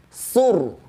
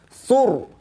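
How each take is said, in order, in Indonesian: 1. R dibaca tebal dan berat. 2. R dibaca tebal dan berat.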